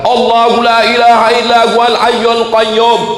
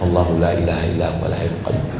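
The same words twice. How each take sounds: First: It is recited loudly and forcefully. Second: It is recited softly and quietly. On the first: The speaker calls it right. "yang dipakai kuat" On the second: The speaker calls it wrong. "bukan yang pelan. ... Bukan itu"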